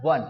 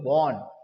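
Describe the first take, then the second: First: The vowel is an open 'uh' sound. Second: The vowel is a rounded 'aw' sound. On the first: The speaker calls it right. "सही pronunciation के साथ" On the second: The speaker calls it wrong. "लेकिन हम और सब लोग इसको क्या बोलते हैं"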